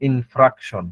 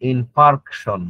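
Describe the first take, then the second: First: The middle syllable is said as 'fra'. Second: The middle syllable is said as 'far'. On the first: The speaker calls it wrong. "Not ইনফ্রাকশন" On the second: The speaker calls it right. "সঠিক স্পেলিংটা হচ্ছে myocardial ইনফার্কশন"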